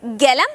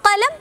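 First: ഗലം with a voiced g at the start; spoken Arabic g sound. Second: കലം with a crisp unvoiced k at the start; classical Arabic k sound. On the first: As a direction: say ഗലം, the kaf softened to g. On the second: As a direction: say കലം with a hard k. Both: Shown as a demonstration. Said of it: "കാഫിന് ഗ എന്നും കൂടി pronounce ചെയ്യാറുണ്ട്".

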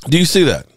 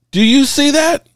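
First: Said in the usual way. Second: High rising disbelieving question; emphatic question. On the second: Real, not acted. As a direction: push it up high, make them see it. Driving home the receiver stats.

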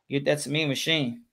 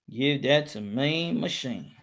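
First: Said in the usual way. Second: Slow, low, stretched-out scoring call; drawn-out call. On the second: Real, not acted. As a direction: draw out each word, low and unhurried.

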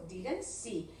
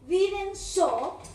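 First: "Didn't see" said softly and low; correct form. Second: "Didn't saw" said high, flagged as an error; a mocking high "Didn't saw"; mock wrong form. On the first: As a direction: calmly give the right "Didn't see". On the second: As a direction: echo the mistake "Didn't saw" with disbelief. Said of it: "no puede ser". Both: Shown as a demonstration.

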